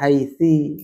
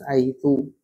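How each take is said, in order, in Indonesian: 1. Kata itu diakhiri dengan vokal i. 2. Kata itu diakhiri dengan vokal u. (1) "Gak bisa dibaca haitsi" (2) "harus haitsu"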